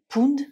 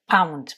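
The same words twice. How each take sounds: First: The vowel is a plain single vowel. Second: The vowel is an 'ow' diphthong. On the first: The speaker calls it wrong. "surtout ne pas le prononcer pound" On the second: The speaker calls it right. "mais pound. ... ça fait le son euh, OW"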